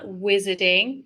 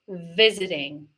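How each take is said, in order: First: The word begins with a W sound. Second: The word begins with a V sound. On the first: The speaker calls it wrong. "not W, not visiting" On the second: The speaker calls it right. "make sure it's the V sound"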